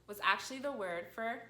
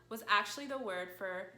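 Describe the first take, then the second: No difference in how they are said.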